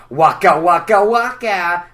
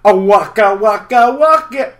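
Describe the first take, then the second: First: Slow, louder Fozzie bear laugh-line; the old take of the waka. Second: Higher, louder, slow waka waka waka; the improved bear take; new Fozzie waka. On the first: Fozzie's catchphrase, first version. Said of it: "here was my old waka waka". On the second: Fozzie's catchphrase, new version. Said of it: "But the new one's". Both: Shown as a demonstration.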